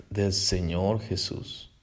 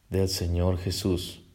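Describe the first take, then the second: The two takes are said the same way.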